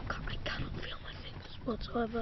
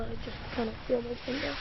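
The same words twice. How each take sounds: First: Hushed whisper, barely voiced. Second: Said in the usual way. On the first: Real, not acted. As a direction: whisper it, frozen and numb. Freezing girl, numb fingers.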